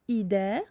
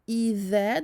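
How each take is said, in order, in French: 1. Le son consonantique du milieu est un 'd' dur. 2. Le son consonantique du milieu est un 'th' doux. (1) "Attention à ne pas dire" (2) "un point égale un vel et non pas un del"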